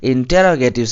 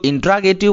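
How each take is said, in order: First: It begins with 'inter-ro', with every syllable. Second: It begins with 'intra', missing a syllable. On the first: The speaker calls it right. "आपको बोलना चाहिए इंटेरोगेटिव" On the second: The speaker calls it wrong. "कुछ लोग इंट्रागेटिव बोलते हैं"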